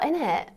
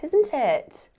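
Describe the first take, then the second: First: The words are shortened, with no s sound. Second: Both words are said in full, with the s.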